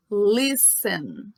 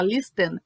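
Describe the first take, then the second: First: "listen" slow and clear with a silent T, LIS-en; correct pronunciation. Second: "listen" with the T sounded, lis-TEN; wrong pronunciation. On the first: Teacher models for students the right "listen", slow with silent T. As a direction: say "listen" slowly, dropping the T entirely. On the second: Teacher shows students the wrong way to say "listen", T sounded. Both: Shown as a demonstration. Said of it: "mas a pronúncia não tem o T".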